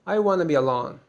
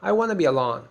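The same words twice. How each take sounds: First: The words 'want to' blend into 'wanna'. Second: The same.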